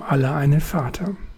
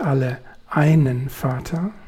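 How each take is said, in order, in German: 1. Die Betonung liegt nicht auf dem Wort 'einen'. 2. Die Betonung liegt auf dem Wort 'einen'. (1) "So ausgesprochen ist dieser Satz aber nicht viel mehr als eine Binsenweisheit" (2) "So betont klingt der Satz anders"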